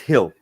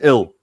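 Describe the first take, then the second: First: The name starts with a breathy h sound. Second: The name starts with a vowel, no h sound. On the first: "If the G becomes a her, then it's Hill" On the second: "if the G is silent, then his name is Ill"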